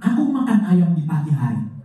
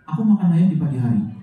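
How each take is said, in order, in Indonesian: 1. Setiap bunyi diucapkan dengan cara yang berlebihan. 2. Kata-katanya tidak jelas, gerakan mulutnya minim. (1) "Yang berlebihan itu seperti ini" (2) "Artikulasi yang buruk seperti ini"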